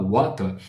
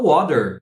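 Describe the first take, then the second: First: It is said with a British accent. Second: It is said with an American accent. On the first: "o cara que tá no Reino Unido, que não fala water, ele fala water" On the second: "o cara que vai falar water nos Estados Unidos"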